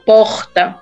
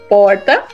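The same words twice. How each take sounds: First: Said in a northeastern accent with a drawn-out R. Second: Said in an inland accent with a changed R. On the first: "normalmente no Nordeste, eles falam porta. Porta mais puxado" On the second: "Normalmente no interior a gente vai falar porta. O R muda"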